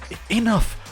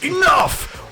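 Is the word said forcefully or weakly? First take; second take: weakly; forcefully. First: The word is said weakly, with little force. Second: The word is said loudly, with strong force. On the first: The speaker calls it wrong. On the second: The speaker calls it right.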